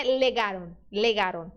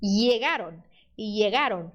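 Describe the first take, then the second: First: "legaron" with a plain L; wrong L sound. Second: "llegaron" as "iegaron". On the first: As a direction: mistaken "legaron", tongue-tip L instead of a glide. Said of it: "Só não faça o som de L". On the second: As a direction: pronounce "llegaron" with LL like a Y. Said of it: "pode ser som de I". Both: Shown as a demonstration.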